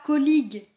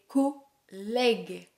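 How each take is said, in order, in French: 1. La voyelle du milieu n'est pas un è ouvert. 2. La voyelle du milieu est un è ouvert. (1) "Ne dis pas colleague" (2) "c'est collègue. ... on a le son è"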